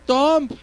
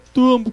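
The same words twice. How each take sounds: First: The vowel sounds like 'oh', as spelled. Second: The vowel sounds like 'oo', as in 'room'. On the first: The speaker calls it wrong. "ahí dice Tomb" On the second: The speaker calls it right. "se pronuncia Tomb. Pero ¿por qué U?"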